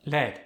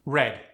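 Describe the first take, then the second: First: "Led" for red, R turned to L; Khmer-style "Led", L replacing R; R softened to L. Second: Said in the usual way. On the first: Shown as a demonstration. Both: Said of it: "The R was softened into an L".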